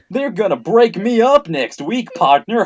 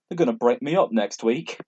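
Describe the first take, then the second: First: It is said in a put-on cowboy voice. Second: It is said in a normal reading voice.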